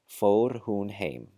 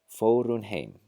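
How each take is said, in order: First: The h in hun is pronounced clearly. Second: The h in hun is dropped. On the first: "with careful enunciation" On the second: "with this rule applied"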